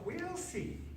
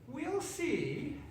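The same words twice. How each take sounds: First: Very high, softer, laughing inwardly; softer knowing laugh. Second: High sly witch, a touch of laughter; mock knowing laugh. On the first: Witch privately amused at the frog, softer and high. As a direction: keep the joke to herself. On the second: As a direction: chuckle it to yourself. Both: A narrator's reading. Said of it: "laughing to herself".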